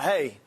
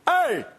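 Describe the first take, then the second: First: It is said softly, in a normal voice. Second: It is said loudly, in a stern dad voice.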